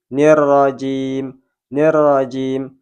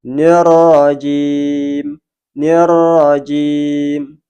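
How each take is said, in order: First: Slow nirrajim with a light thin r. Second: Very slow Nirrajim with a full heavy ro; thick ro. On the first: Teacher showing ro wrongly read thin. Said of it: "huruf ro dibaca tipis". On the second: Teacher demonstrating the thick ro. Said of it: "wajib dibaca tebal". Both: Shown as a demonstration.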